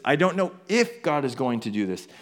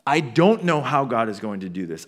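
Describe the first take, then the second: First: IF singled out in "I don't know if"; stress on IF. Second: DON'T punched firmly in "I don't know how"; stress on DON'T. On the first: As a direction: lean on the word "if". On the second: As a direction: lean hard on the word "don't". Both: Acted. Contrasts not knowing how with if.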